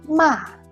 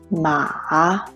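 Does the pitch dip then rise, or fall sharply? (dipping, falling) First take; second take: falling; dipping. First: The pitch falls sharply from high to low. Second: The pitch dips low and then rises. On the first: "The fourth tone is a falling tone" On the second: "The third tone is a low raising tone"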